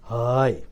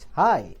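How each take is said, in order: First: The word is said at a low pitch. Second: The word is said at a medium pitch. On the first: "lower pitch" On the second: "my normal pitch"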